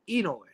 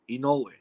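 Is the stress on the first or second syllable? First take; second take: first; second. First: The stress is on the first syllable. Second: The stress is on the second syllable. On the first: The speaker calls it wrong. "He does it on the E" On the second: The speaker calls it right. "the accent goes on the no"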